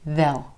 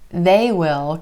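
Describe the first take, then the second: First: It is a contraction with a reduced vowel. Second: It is said as two full words. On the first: "most of the time you're going to hear they'll" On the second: "They will can become they'll"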